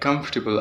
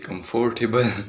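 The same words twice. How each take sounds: First: It is said with a standard English pronunciation. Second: It is said with a Pakistani English pronunciation. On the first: The speaker calls it right. "instead of saying like" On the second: The speaker calls it wrong. "I would say"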